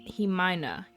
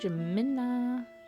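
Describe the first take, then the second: First: The name begins with an H sound. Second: The name begins with an English J sound. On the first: The speaker calls it right. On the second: The speaker calls it wrong.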